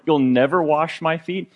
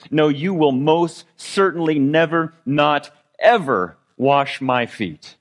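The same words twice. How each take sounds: First: Said in the usual way. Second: Slow, drawn-out "never" and "not ever", each word pressed; emphatic never. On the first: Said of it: "the word here for". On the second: Retold or imitated. Peter refusing to let Jesus wash his feet, slow and emphatic. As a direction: stretch "most certainly never, not ever" as an absolute refusal. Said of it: "it literally means never in all eternity".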